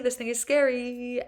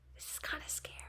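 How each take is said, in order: First: It is said louder, speaking up. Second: It is said softly, almost whispered.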